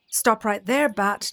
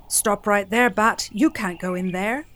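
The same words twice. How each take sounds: First: Stern zebra. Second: Louder, firm halt; stern vulture. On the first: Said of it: "neighed Zebra". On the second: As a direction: stop him cold. Vulture blocks Bat. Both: Acted.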